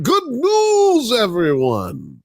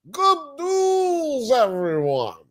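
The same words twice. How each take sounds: First: Put-on high, loud old professor voice; shouted catchphrase, high and cracking. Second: Professor catchphrase. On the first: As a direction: announce it like the cartoon professor. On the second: Retold or imitated. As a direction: call it out like the cartoon professor.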